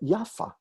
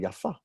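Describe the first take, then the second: First: The stress is on the first syllable. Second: The stress is on the second syllable. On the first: It is a girl's name. "As a name, we pronounce it yafa, ... they would have put the stress on the first syllable" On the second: It is the adjective meaning pretty. "As an adjective, we pronounce it with the accent on the second syllable"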